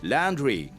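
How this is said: It is said with an English accent. The speaker calls it wrong. "like in English"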